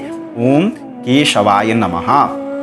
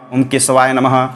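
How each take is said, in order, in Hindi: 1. मंत्र के शब्द साफ़ और सही तरीके से बोले गए हैं। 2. मंत्र के शब्द ढीले और ग़लत तरीके से बोले गए हैं। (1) "शुद्ध उच्चारण होता है" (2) "बहुत से पंडित लोग बोलते हैं"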